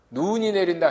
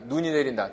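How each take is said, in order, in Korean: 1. 첫 번째 단어의 모음은 길게 늘여 발음해요. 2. 첫 번째 단어의 모음은 짧게 발음해요.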